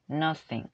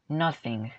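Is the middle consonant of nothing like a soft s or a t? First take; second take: soft s; soft s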